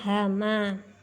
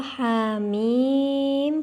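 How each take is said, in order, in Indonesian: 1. Dibaca sebagai satu kata pendek, hama. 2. Dibaca sebagai nama huruf, ha mim. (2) "dibaca berdasarkan nama hurufnya"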